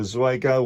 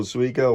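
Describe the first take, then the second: First: Zwigo said as "ZWAY-go"; first vowel of Zwigo rhyming with "way"; alternative pronunciation. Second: Zwigo said as "ZWEE-go"; first vowel of Zwigo rhyming with "see"; alternative pronunciation. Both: Shown as a demonstration. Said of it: "or however you pronounce it".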